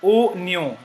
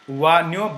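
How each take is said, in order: First: The word begins with a plain 'o' sound. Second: The word begins with a 'wa' sound. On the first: The speaker calls it right. "but o nyo" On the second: The speaker calls it wrong. "It is not pronounced as wa nyo"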